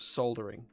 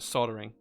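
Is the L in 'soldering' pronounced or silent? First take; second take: pronounced; silent. First: The L sound is clearly pronounced. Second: The L sound is left out. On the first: This is the way people in the UK say it. "I'm from the U K, so yeah, it's soldering" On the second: This is the way Americans say it. "it's not soldering"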